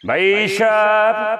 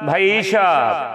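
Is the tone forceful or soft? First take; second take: forceful; forceful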